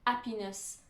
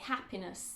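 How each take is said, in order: First: The starting H sound is dropped. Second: The starting H sound is clearly breathed. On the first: The speaker calls it wrong. "We don't say" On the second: The speaker calls it right. "the H at the beginning of words is not silent"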